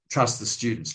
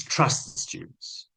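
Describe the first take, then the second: First: Said in the usual way. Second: Slow soft whisper; repeating advice to trainees, slow whisper. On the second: Shown as a demonstration. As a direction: hush it slowly to let it sink in.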